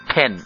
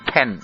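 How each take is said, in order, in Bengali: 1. প্রথম p ধ্বনিতে বাতাসের জোরালো ফুঁ থাকে। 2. প্রথম p ধ্বনিতে বাতাসের জোরালো ফুঁ থাকে।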